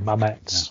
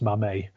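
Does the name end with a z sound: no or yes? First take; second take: yes; no. First: The name ends with a z sound. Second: The name ends without a z sound. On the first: The speaker calls it wrong. "I always pronounce it the English way" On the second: The speaker calls it right. "Apparently it's Mamet. You don't pronounce a Z on the end"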